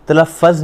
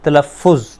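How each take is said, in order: First: تلفظ wrongly ending in "-faz"; mispronounced تلفظ. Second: تلفظ ending in "-fuz"; correct pronunciation of تلفظ. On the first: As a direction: say تلفظ as "talaffaz", with an a in the last syllable. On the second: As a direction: model تلفظ as "talaffuz", with a u in the last syllable. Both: Shown as a demonstration. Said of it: "تلفظ نہیں کہنا".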